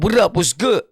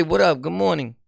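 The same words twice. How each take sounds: First: Slightly punched-up street greeting; forced slang. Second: Said in the usual way. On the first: Shown as a demonstration. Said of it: "talk like that with slang". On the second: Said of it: "You could say".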